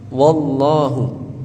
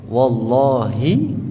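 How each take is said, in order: First: The word ends with a 'u' vowel. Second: The word ends with an 'i' vowel. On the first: And God. "Kalau dibaca wallahu, dan Allah" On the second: By God. "Kalau dibaca kasra"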